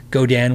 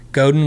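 First: "Godin" with a full DAN second syllable; considered pronunciation. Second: "Godin" with a swallowed second syllable, GOH-din; fast-talk pronunciation. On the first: Streamer thinking about the name, "Godin" said carefully as go-DAN. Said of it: "when I think about it". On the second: Streamer showing his fast-talk habit, "Godin" reduced to GOH-din. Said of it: "when I'm talking fast". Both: Shown as a demonstration.

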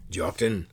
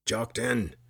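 First: Lightly voiced gruff soldier; gruff rumble. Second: Mildly angry shout of a name; angry call. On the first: Sergeant addressing the accused at his door, gruff. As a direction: rumble the name with authority. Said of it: "a gruff voice rumbled". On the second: Soldier calling from outside the dwelling, mildly angry. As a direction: call him out with a touch of anger. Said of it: "an angry voice called out". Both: A narrator's reading.

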